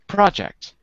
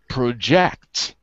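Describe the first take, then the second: First: The stress is on the first syllable. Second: The stress is on the second syllable. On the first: It is used as a noun. "the stress is on the first syllable" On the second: It is used as a verb. "As a verb, the stress is on the second syllable"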